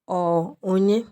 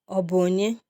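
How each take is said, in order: First: The middle syllable is dropped, shortening it. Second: Every syllable is said in full. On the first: "a native Igbo speaker would often contract this to just ọ onye" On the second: "who is it?"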